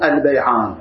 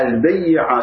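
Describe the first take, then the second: First: البيعان read as al-bay'an, light, the two goods; البيعان said without shadda, al-bay'an, the reading to drop; rejected reading. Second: البيعان read as al-bayyi'an, with shadda, buyer and seller; البيعان said with a doubled y, al-bayyi'an; correct reading. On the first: Teacher sets the two readings of the hadith against each other, plainly. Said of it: "مو البيعان". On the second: Teacher confirms the right reading to the students, firmly. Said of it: "لا، البيعان". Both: Shown as a demonstration.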